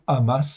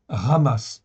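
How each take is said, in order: First: The word begins directly with a vowel sound. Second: The word begins with a throaty R-like sound. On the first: "On peut dire amasse hein, à l'occidental" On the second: "je dis bien ramasse ... ça se prononce comme un R en fait au début"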